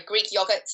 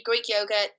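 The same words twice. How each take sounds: First: "yogurt" with a short British o, as in dog; British pronunciation. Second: Said in the usual way. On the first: Shown as a demonstration. Host correcting a listener letter's reading, British-style "yogurt" with short o. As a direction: say "yogurt" as YOG-urt. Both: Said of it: "sorry, Greek yogurt".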